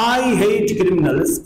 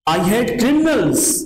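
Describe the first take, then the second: First: The stress falls on the word I. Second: The stress falls on the word criminals. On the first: The speaker himself, and nobody else, hates criminals. "आई पर जोर है, intonation आई पर है।" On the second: It is criminals, not thieves, that are hated. "जोर object पर है।"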